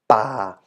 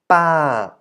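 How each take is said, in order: First: The pitch stays low throughout. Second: The pitch falls from high to low. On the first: "The low tone" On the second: "So falling by adding the tone mark two on top"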